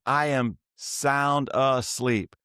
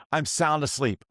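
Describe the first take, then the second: First: "sound asleep" spaced out slowly, word by word; slow, deliberate stress on each word of "I am sound asleep"; emphatic repeat. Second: Said in the usual way. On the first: Real, not acted. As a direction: insist on it, drawing out "I am sound asleep". Repeats it to insist, not kidding.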